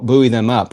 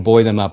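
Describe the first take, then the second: First: Buoy is said in a non-British way. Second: Buoy is said in a British way. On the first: "I've been given crap about saying it that way" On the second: "however we say it in the U K"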